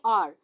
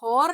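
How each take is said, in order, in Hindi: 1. इस शब्द की शुरुआत एक स्वर से होती है, इसमें h नहीं है। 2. इस शब्द की शुरुआत में h की आवाज़ साफ़ सुनाई देती है। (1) "इसकी एक्चुअल प्रोनाउंसिएशन क्या है" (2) "हॉर नहीं है ये"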